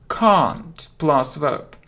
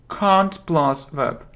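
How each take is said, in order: The two takes are said the same way.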